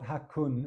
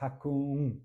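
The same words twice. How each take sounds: First: The final n is a plain English n. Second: The final n is nasalized. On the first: The speaker calls it wrong. "It's not hakun" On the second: The speaker calls it right. "it's hakun"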